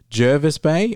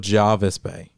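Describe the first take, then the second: First: The first vowel sounds like the 'er' in 'her'. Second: The first vowel sounds like the 'ar' in 'car'. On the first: The speaker calls it right. "She says Jervis" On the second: The speaker calls it wrong. "I say Jarvis"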